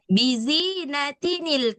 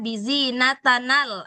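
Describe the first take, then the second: First: The added n sound is followed by i. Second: The added n sound is followed by a. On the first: The speaker calls it right. "Jadi dia harus tetap kasroh" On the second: The speaker calls it wrong. "nggak dibaca bizi natanal"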